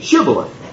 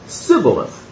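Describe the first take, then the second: First: The word begins with an 'sh' sound. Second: The word begins with a plain 's' sound. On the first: The speaker belongs to the right tribe. The speaker calls it right. "They could not say Shibboleth" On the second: The speaker belongs to the enemy tribe. The speaker calls it wrong. "They pronounced it Sibboleth"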